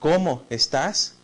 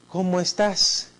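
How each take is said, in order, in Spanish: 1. Suena sorprendido y lleno de admiración. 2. Suena cálido y cariñoso. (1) "como una expresión admirativa, ¿no? De sorpresa, de admiración" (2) "Con una carga afectiva"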